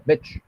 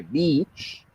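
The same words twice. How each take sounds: First: "bitch" said with a short, clipped i. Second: "beach" said with a long ee sound. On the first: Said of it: "que es más cortita". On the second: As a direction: stretch the ee of "beach". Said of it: "suena más alargada". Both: Shown as a demonstration.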